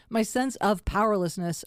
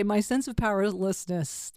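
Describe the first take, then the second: First: Said in the usual way. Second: "powerlessness" stumbled over slightly; stumbled pronunciation. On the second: Real, not acted. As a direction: trip slightly on the word "powerlessness". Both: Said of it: "I can't even say it".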